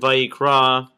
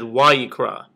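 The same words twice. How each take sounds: First: The word begins with a v sound. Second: The word begins with a w sound. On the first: This is the modern Hebrew pronunciation. "is a Vav" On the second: This is the ancient Hebrew pronunciation. "it used to be a Wav. So you would have said"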